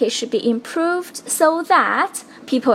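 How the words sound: The phrase so that is strongly stressed. The speaker calls it wrong. "一个so that 被做了特别重读的一个处理。"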